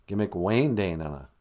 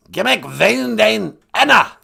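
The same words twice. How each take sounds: First: Said in the usual way. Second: Loud, high learner repeating carefully; high voice hammering each word; high-pitched guest character. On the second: Acted. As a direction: belt the phrase back in a high character voice. Guest figure repeats after host.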